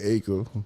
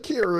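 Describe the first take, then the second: First: The name sounds like the word 'acre'. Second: The name sounds like 'Kara', with an added syllable. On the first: The speaker calls it wrong. "I've been saying it wrong the whole time" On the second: The speaker calls it right. "now you saying it right"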